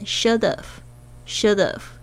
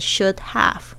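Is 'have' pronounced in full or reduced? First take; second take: reduced; full. First: The two words are run together, have reduced. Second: Both words are pronounced fully and clearly. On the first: The speaker calls it right. "而是念should have" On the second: The speaker calls it wrong. "不会念should have"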